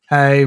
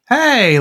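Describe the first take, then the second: First: It sounds flat and unexcited. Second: It sounds giddy and excited.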